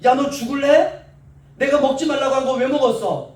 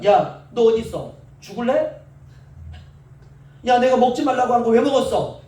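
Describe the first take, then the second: First: Hypothetical furious scolding, louder and higher; mock angry scolding. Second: Hypothetical furious scolding, a bit louder; mock angry scolding. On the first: Imagined angry God threatening Adam, mock fury. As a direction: bark it like an irate father. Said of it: "하나님 이렇게 하지 않으시고요". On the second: Imagined angry God scolding disobedient Adam, mock fury. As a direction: play an irate father catching his son. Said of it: "얼마나 열받으시겠습니까".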